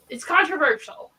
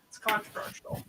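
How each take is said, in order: First: Said in the usual way. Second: Breathy whisper, no voice. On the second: Shown as a demonstration. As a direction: whisper it like a secret. Repeats the line, then whispers it.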